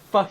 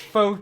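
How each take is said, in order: First: The vowel is a short 'uh' sound. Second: The vowel is a long 'oh' sound. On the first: It sounds like a swear word. "instead of fuck cubes" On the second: It avoids sounding like a swear word. "purposefully mispronounce pho as faux"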